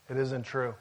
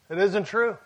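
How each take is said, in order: First: Soft, dropped low; a quiet flat verdict. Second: Firmer, rising on true; second "It isn't true", stronger; firm repeat. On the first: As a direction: say it softly, almost to yourself. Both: Shown as a demonstration.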